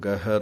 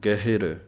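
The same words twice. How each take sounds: First: No short i sound follows the h. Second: A short i sound follows the h. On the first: The speaker calls it wrong. "ਇਹਨੂੰ ਗਹਿਰ ਨਹੀਂ ਕਹਿਣਾ" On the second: The speaker calls it right. "ਗਹਿਰ ਹਾਏ ਸਿਹਾਰੀ ਹੈ"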